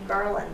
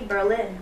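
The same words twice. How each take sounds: First: The stress is on the first syllable. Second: The stress is on the second syllable. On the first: It names the local town. The speaker calls it right. "we're going to be Berlin" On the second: It names the German capital. The speaker calls it wrong. "we're not going to be Berlin"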